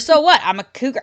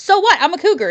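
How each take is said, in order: First: It is said like a puzzled question. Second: It is said as a happy exclamation.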